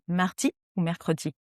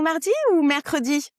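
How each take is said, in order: First: It sounds crisp, with strongly pressed consonants. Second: It sounds agitated, without pressed consonants. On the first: The speaker seems calm and assertive. The speaker calls it right. "appuie sur les consonnes" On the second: The speaker seems upset. The speaker calls it wrong. "tu tu tu t'énerves"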